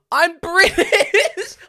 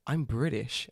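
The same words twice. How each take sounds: First: High, very loud, stretched-out outraged cry; exasperated shout. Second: Said in the usual way. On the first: Retold or imitated. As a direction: scream it slowly, cracking into laughter. Exasperated repeat of same answer.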